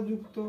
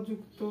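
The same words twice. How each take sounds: The two takes are said the same way.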